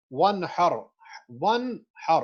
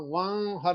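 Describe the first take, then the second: First: ون ہر with the noon sounded fully, no nasal merge; clear noon. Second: ون ہر with the noon swallowed into a nasal hum; wrong merged way. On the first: Teacher demonstrating izhar to students, clear noon. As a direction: say ون ہر with a crisp separate noon. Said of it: "میں اس کو clearly ادا کر رہا ہوں". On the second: Teacher showing students the wrong nasal version. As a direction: show the mistaken nasal ون ہر. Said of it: "ون ہر نہیں کہہ رہا میں". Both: Shown as a demonstration.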